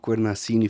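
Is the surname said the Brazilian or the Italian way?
Brazilian. The surname is said the Brazilian Portuguese way.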